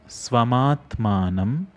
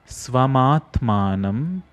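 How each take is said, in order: No difference in how they are said.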